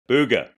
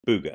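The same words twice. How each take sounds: First: The word is said at a louder volume. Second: The word is said at a quieter volume. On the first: The second player raises the dare. "the other person has to say it louder" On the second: The first player starts the dare. "someone goes, booger"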